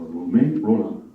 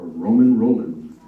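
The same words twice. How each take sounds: First: Romain Rolland with nasal French vowels, the final d dropped; best French accent. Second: Said in the usual way. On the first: Shown as a demonstration. Host proudly naming the author in a French accent. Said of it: "I'm just doing my best French accent". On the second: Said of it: "in English".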